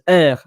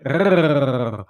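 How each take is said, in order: First: The r is a French throat r. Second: The r is a rolled Spanish trill. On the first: "The R in French is R" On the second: "but in Spanish, it's like rrrr"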